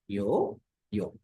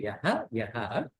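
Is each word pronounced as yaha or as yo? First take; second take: yo; yaha. First: Each word ends with an o sound. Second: Each word ends with an aha sound. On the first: These are the words joined by sound rules. "in with the sandhi, they become yo, yo" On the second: These are the separate words before joining. "the words are actually yaha and yaha"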